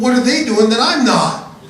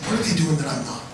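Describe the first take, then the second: First: It sounds whiny and complaining. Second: It sounds like a sincere, curious question. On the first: He is complaining about being left out. "He wasn't whining. He wasn't saying" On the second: He genuinely wants to know how to improve. "Listen to my voice inflection there. He was actually asking the question"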